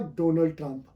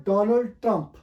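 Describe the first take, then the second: First: डोनाल्ड with a long round "DOH"; wrong pronunciation. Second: डोनाल्ड with open "DAH", then Trump; correct pronunciation. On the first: Teacher rejects the usual reading, wrong डोनाल्ड as "DOH-nuld". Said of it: "it's not". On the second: Teacher gives the actual name, correct डोनाल्ड as "DAH-nuld". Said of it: "ये actual है". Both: Shown as a demonstration.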